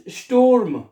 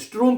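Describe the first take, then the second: First: स्टूर्म as "shtoorm", U before the R; correct German pronunciation. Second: स्ट्रूम as "shtroom", R before the U; students' mispronunciation. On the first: Shown as a demonstration. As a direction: hold the "oo" of स्टूर्म, then sound the R. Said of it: "पहले ऊ पढ़ना है". (स्टूर्म, पहले ऊ फिर आर) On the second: Retold or imitated. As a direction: put the R ahead of the vowel in स्ट्रूम, as students wrongly do. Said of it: "आर पहले पढ़े होते हैं". (स्ट्रूम, आर पहले और ऊ बाद में)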